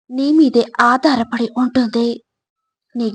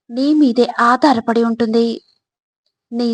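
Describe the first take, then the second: No difference in how they are said.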